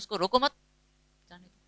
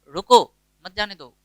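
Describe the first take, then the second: First: There is a pause after 'mat'. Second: There is a pause after 'roko'.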